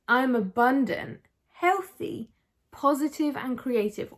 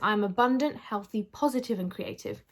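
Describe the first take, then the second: First: It is read warmly, with feeling. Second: It is read flatly, without feeling.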